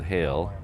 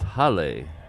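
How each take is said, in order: First: The name is said with an English pronunciation. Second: The name is said with a Hawaiian pronunciation. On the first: It is the surname's usual English reading. "I'm assuming you pronounce that Hale" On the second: It is the Hawaiian word meaning home. "here in Hawaii, that's Hale. It means home"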